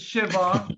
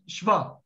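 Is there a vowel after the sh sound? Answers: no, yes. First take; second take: yes; no. First: A vowel is heard after the sh. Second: The sh runs straight into the v. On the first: The speaker calls it wrong. "It is not shiva" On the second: The speaker calls it right. "It is shva"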